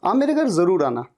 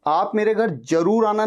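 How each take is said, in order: First: जरूर with a buzzing z, "zaroor", quickly. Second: जरूर with a hard j, "jaroor"; wrong j sound. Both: Shown as a demonstration. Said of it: "ज नहीं".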